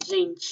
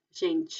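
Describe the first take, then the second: First: "gente" with soft zh G and final ch. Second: "gente" again, zh start, ch ending; soft G repeated. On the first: Teacher models "gente" with the soft Portuguese G. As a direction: say "gente" as zhen-chee. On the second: Teacher repeats "gente" for students. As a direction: repeat "gente" as zhen-chee. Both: Shown as a demonstration. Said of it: "se pronuncia G".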